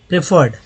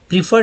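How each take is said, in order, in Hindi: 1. पहला स्वर 'eh' जैसा बोला जाता है। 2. पहला स्वर 'ee' जैसा बोला जाता है। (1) "यहाँ पर प्रेफर्ड" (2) "प्रीफर्ड नहीं"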